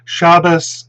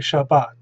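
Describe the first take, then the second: First: The stress is on the first syllable. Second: The stress is on the last syllable.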